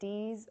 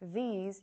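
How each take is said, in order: First: The word starts with a hard d sound. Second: The word starts with a voiced th sound. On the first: The speaker calls it wrong. "you'll hear a d or z" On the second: The speaker calls it right. "Instead of these"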